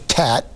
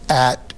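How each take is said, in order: First: The first consonant is a t sound. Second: The first consonant is left out entirely. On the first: A later stage with an easier sound. "to tat, because the tongue tip is easier to raise" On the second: An early stage of a child's speech. "You omit the sound"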